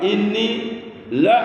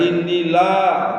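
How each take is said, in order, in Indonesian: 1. Vokal pada 'la' tetap dibaca pendek. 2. Vokal pada 'la' diucapkan panjang. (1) "dibaca pendek" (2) "bukan panjang, bukan inni la"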